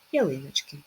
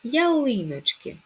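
First: Said in the usual way. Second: "Ялиночки" high, with stretched ли; "Ялиночки", slow, stressing the second syllable; stress on first и. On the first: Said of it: "з наголошеними і". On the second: Shown as a demonstration. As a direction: lift and lengthen ли in "Ялиночки". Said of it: "наголос на першу і".

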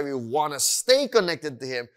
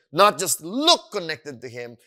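First: "stay" emphasized for contrast; stress on stay. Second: "look" punched louder; "look" stressed for contrast. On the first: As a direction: lean on "stay". Contrasts staying with merely looking connected. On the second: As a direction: hit "look" hard to dismiss it. Contrasts looking with truly staying connected. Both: Shown as a demonstration.

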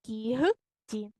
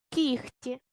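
First: Кігті slowly in parts with a voiced г, "KI-h-ti"; spelling pronunciation. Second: Кіхті with an unvoiced "kh", "KIKH-ti"; devoiced г. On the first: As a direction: dictate кігті as written. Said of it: "І пишемо". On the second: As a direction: say кіхті as spoken, a х sound before т. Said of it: "як парні глухі". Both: Shown as a demonstration.

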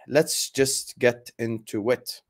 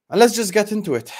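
First: Slow, weighted repeat; slow and deliberate. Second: High and loud, launching in; bursting to start the rant; fired-up. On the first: Host to viewers, repeating himself grimly: slow and heavy. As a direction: drag it out with grim intent. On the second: Host to viewers, fired up to begin the rant: loud and high. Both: Real, not acted.

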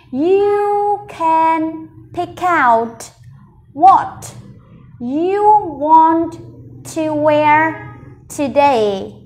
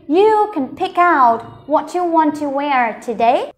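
First: Very slow, broken into small groups with pauses; word-group model reading. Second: Slow but connected reading, words flowing together; whole-sentence model. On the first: Teacher leading learners along, very slow chunk by chunk. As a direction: stretch each word and pause between chunks. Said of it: "Mình sẽ cùng đọc cả câu này". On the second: Teacher reading the whole sentence with learners, slow and connected. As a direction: read it through in one measured flow. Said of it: "Mình cùng đọc cả câu nhá". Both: Shown as a demonstration.

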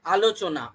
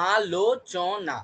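First: Said in the usual way. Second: আলোচনা slowly, আ-লো-চ-না each apart; syllable by syllable. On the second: Shown as a demonstration. Teacher to class, counting syllables in আলোচনা slowly. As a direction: stretch আলোচনা into four slow beats. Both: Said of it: "চারটে প্রয়াসে হচ্ছে".

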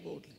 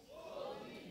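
First: Said in the usual way. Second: Whispered; mock the timid way. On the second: Shown as a demonstration. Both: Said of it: "Not timidly".

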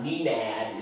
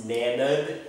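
First: Nenad misread as NEE-nad, long ee; wrong pronunciation. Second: Nenad said slowly as NEH-nad; correct pronunciation. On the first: Vlogger warning viewers it's not said so, mispronounced NEE-nad. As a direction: say Nenad slowly with an English "nee" at the start. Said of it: "It's not Nenad". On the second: Vlogger correcting the misreading for viewers, correct NEH-nad. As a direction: give Nenad a short "eh" first vowel, never "nee". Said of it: "it's Nenad". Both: Shown as a demonstration.

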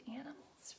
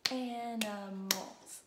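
First: Said in the usual way. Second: "Animals" loud and slow, AN-I-MALS; clapped-out syllables. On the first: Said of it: "Let's do animals". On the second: Shown as a demonstration. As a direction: clap out three slow beats on "Animals". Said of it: "we're gonna clap out some syllables".

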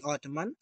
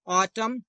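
First: ऑटमन with the n wrongly sounded at the end; ऑटमन as autumn-n, n voiced; wrong extra n. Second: ऑटम said with no n at the end; ऑटम like autum, final n dropped; silent n. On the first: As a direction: say ऑटमन pronouncing the final n, the wrong way. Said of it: "ना कि". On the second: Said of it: "ना कि ऑटमन". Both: Shown as a demonstration.

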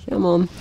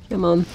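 The two takes are said the same way.

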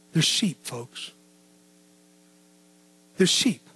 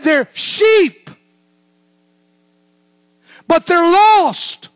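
First: Much softer and lower, almost spoken to himself; hushed quotation. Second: Louder, higher, slowing hard on lost; booming proclamation. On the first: Preacher repeating Jesus' words to the church, hushed. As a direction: let it fall to a near hush. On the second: Preacher quoting Jesus to the congregation, booming. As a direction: preach it out to the whole room. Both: Acted.

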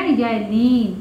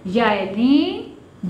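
First: Said in the usual way. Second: याए लीन drawn out slowly; slow teacher's heading; slow announced term. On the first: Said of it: "तो ये क्या बन गया?". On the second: Shown as a demonstration. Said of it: "जब ये से पहले हर्फ पर ज़बर".

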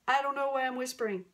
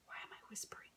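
First: Suddenly loud, quick full voice; fast, fully voiced and louder; out of whisper. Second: Very soft, voiceless whisper; real hushed whisper. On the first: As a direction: break out of the whisper into loud speech. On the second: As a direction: ask it under your breath, fully whispered. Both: Real, not acted.

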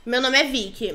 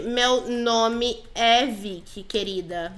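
First: Said in the usual way. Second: "Meu nome é Vicky" said slowly, word by word; slow correction. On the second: Pretend. Player corrects her nickname with "Meu nome é Vicky", slow and emphatic. Corrige o apelido, devagar.

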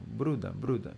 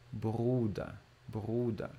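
First: "Bruder, Bruder" with a single tapped R, as in Portuguese caramba. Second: "Bruder" with the R trilled on the tongue; rolled R. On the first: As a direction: flick the R in "Bruder" once, like Bruna. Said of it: "o som do R de caramba, assim, ó". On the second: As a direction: let the R in "Bruder" vibrate, not scrape. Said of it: "Esse aqui não arranha R, ele vibra". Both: Shown as a demonstration.

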